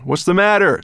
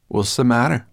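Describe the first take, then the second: First: High, loud called question; calling back. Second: Higher, louder, mocking question; sarcastic. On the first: Dragon asking his quarrelling riders, calling back. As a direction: call it back over your shoulder. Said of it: "the dragon called back to them". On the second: Sorrel teasing dizzy Ben, sarcastic. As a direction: needle with a rising question. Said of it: "asked Sorrel sarcastically". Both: A narrator's reading.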